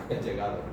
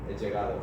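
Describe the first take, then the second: Both takes have the same delivery.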